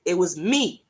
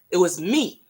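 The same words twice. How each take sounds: The two takes are said the same way.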